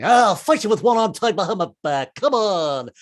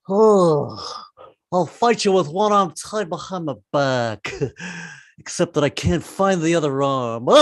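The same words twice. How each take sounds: First: A hint of a blustering Cowardly Lion; lightly voiced lion picking a fight. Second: Slow, dazed lion voice; a lightly voiced lion, stoned and slow; stoned Cowardly Lion. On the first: Comic does the Cowardly Lion, light blustery voice. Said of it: "This is the Cowardly Lion". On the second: Comic does the Cowardly Lion stoned, slow dazed voice. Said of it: "he should get stoned".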